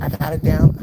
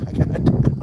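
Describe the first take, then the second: First: Loud, high mock snap from the busy waitress; flustered waitress. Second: Loud whispered repeat of the waitress; hissed repeat. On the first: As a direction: call it out loud and high like a harried cook. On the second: Retold or imitated. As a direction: hiss it back hard and loud. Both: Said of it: "And she's like".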